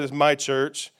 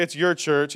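First: "my" leaned on, set against "your"; "my" stressed, not "your". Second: Said in the usual way. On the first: Shown as a demonstration. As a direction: hit the word "my" to mark ownership. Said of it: "He said". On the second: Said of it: "He also didn't say".

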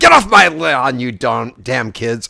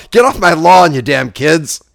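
First: A hint of a gruff grumpy old man; lightly voiced Clint Eastwood growl; Clint Eastwood impression. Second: Put-on loud grumpy old man yell; Clint Eastwood impression. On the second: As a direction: bark it like an angry old man. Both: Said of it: "trying to do Clint Eastwood in Gran Torino".

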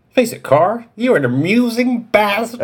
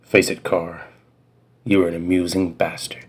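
First: Put-on high old man voice; a much higher old-man voice; grandpa voice. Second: Lower, quieter, gruff-cool delivery; a slightly lower cool-guy read. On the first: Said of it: "I'll do my grandpa voice". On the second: Acted. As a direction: drop low like a tough guy. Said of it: "let me go even lower in my register".

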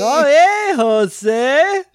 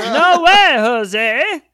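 First: High, loud goofy cartoon doctor voice; Dr. Nick impression. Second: Very high, loud cartoon doctor squeal; Dr. Nick impression. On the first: Cohost riffing on the line as Dr. Nick, goofy and high. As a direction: chirp it like a cartoon quack doctor. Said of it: "that was a little bit of ... the doctor from The Simpsons". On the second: Cohost repeating the line as a goofy doctor, very high. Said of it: "I don't even know what that was".

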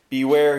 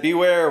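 First: Loud warning call. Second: Beware higher and louder; stronger warning. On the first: Straining prisoner warning the travellers, loud. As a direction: warn them sharply. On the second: Straining prisoner warning again, louder and higher. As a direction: push the warning further. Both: Acted.

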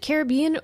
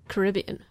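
First: "Caribbean" with the weight on BE; Caribbean stressed on BE. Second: "Caribbean" with the weight on RIB; Caribbean stressed on RIB. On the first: Co-host asking which way to say it, Caribbean stressed on BE. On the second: Co-host offering the other pronunciation, Caribbean stressed on RIB. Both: Shown as a demonstration. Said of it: "so is it Caribbean or, or".

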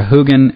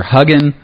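First: "Hugin" with first vowel as in "who"; long-oo pronunciation. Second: "Hugin" with first vowel as in "hug"; short-u pronunciation. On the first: Host offering the other reading, "Hugin" said HOO-gin. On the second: Host asking the author about the name, "Hugin" said HUG-in. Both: Shown as a demonstration. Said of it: "how do you pronounce that".

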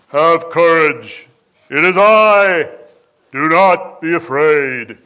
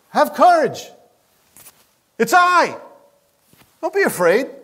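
First: Loud, slow, booming movie-epic voice; sonorous Charlton Heston Jesus. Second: High, light, cheerful reassurance; smile in his voice. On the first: Preacher mocking a solemn film Jesus, loud and slow. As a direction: boom it out like an old Hollywood Moses. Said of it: "wasn't the sonorous Charlton Heston". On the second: Jesus cheerfully calming frightened disciples, smiling voice. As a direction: say it with a grin to scared friends. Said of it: "there was a smile in his voice". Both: Shown as a demonstration.

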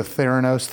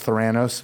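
First: Theranos with the stress on the first syllable; first pronunciation. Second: Theranos with the stress on the second syllable; alternative pronunciation. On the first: Host teasing founder over a sound-alike name, THAIR-uh-nohs for Theranos. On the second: Host correcting the sound-alike name, thuh-RAN-ohs for Theranos. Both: Shown as a demonstration. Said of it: "have a pronunciation issue".

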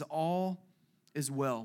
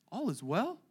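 First: Said in the usual way. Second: "All is well?" asked softly, rising in doubt; questioning. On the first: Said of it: "I like this". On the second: Shown as a demonstration. Preacher questioning the mother's answer, softly. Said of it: "which is an interesting response".

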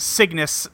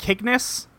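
First: Said in the usual way. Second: Cygnus said with a hard K, "KIG-nus"; hard-K pronunciation. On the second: Shown as a demonstration. Host suggests how the show pronounces the name, Cygnus as "KIG-nus". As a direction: start Cygnus with K instead of S. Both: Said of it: "I think they pronounce it".

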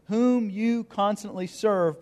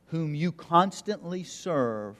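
First: Whom lifted high, the phrase drawn out slowly; stress on whom. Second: You leaned on, slow and deliberate; stress on you. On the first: Pastor pointing out the phrase to congregation, high slow stress on whom. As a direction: land hard on whom, then slow through constantly serve. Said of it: "notice this phrase". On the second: Pastor reading the king's words to congregation, slow stress on you. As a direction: whom you constantly serve, slowed with weight on you. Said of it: "notice the difference". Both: Shown as a demonstration.

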